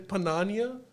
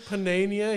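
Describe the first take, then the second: First: The name is said with a South Asian pronunciation. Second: The name is said the standard local way.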